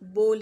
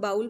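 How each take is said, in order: First: The vowel sounds like 'oh' in 'go'. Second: The vowel sounds like 'ow' in 'how'. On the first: The speaker calls it right. "जबकि ये बोल है, simple बोल" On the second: The speaker calls it wrong. "हम में से अक्सर लोग इसको बाउल पढ़ते हैं"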